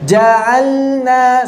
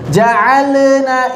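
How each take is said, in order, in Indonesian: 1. Bunyi l ditahan tanpa memantul. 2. Bunyi l memantul lalu dilepas. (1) "Nekannya pas tapi nggak sampai qalqalah" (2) "menyentuhkan berlebihan biasanya memantul ... ini juga tidak"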